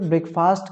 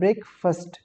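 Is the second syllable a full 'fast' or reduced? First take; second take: full; reduced. First: The second syllable is a full 'fast'. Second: The second syllable is reduced, not a full 'fast'. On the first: The speaker calls it wrong. "ये सही pronunciation नहीं है" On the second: The speaker calls it right. "फास्ट की जगह पे जो है ब्रेकफास्ट कहा जाता है"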